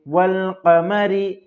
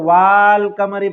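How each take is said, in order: First: The first vowel is short, with no extra a. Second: The first vowel is long, with an extra a. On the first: The speaker calls it right. "अलिफ यहाँ पर साइलेंट है" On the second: The speaker calls it wrong. "अगर अलिफ को पढ़ते तो वाल कमरी पढ़ते"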